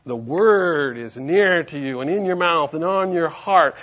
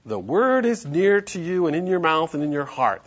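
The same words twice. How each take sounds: First: "word" drawn out and loud; slow reading with a weighty, stretched "word"; stress on "word". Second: Said in the usual way. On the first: Shown as a demonstration. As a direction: lean long and hard on "word". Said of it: "The emphasis on the word". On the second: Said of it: "the emphasis on".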